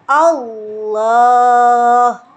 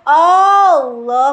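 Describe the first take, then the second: First: The first vowel is kept short. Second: The first vowel is drawn out long. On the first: It is a plain statement. The speaker calls it right. "Yang benar adalah Allah" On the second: It becomes a question: is Allah great? The speaker calls it wrong. "Berarti nggak boleh Allah, nggak boleh"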